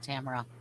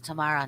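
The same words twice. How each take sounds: First: The stress is on the first syllable. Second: The stress is on the second syllable. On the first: The speaker calls it wrong. "not Tamara" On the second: The speaker calls it right. "Actually, it's Tamara"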